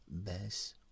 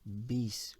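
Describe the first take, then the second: First: The first name's vowel sounds like 'eh'. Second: The first name's vowel sounds like 'ee'.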